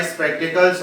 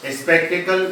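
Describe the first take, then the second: First: स्पेक्टिकल्स with a final s; correct form. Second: स्पेक्टिकल with no final s; wrong form. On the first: Teacher correcting learners, स्पेक्टिकल्स ending in s. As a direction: close स्पेक्टिकल्स on an s after the l. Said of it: "इसमें एस लगा होता है". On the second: Teacher showing the form to avoid, स्पेक्टिकल without s. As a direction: stop स्पेक्टिकल on the l, leaving off s. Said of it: "नहीं होता". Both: Shown as a demonstration.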